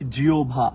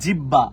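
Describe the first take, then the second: First: The middle consonants glide through w into bh. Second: The middle consonant is a long doubled b. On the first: The speaker calls it right. "এটার উচ্চারণটা হচ্ছে জিওভা" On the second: The speaker calls it wrong. "এটার উচ্চারণ জিব্বাটাও না"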